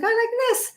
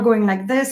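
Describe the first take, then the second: First: The voice is pitched high and strained. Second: The voice is pitched low and relaxed. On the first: The speaker sounds stressed and less authoritative. The speaker calls it wrong. "we have a tendency to raise our voice" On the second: The speaker sounds calm and in authority. The speaker calls it right. "we need to lower our voice"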